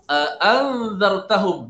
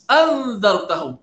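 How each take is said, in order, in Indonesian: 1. Kata itu dimulai dengan dua hamzah yang terpisah. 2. Kata itu dimulai dengan satu hamzah. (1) "dua hamzah" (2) "tak boleh nak ulang dua kali"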